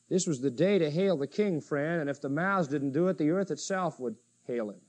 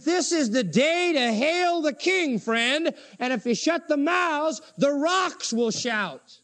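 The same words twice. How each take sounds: First: Softer, low-key restatement; subdued reflection. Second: High, drawn-out preaching cry; exultant proclamation. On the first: Real, not acted. Preacher reflecting on the day to hail the King, subdued. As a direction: bring it down and reflect softly. Same declaration repeated in hushed reflection. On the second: Acted. Preacher hailing the King before the congregation, exultant proclamation.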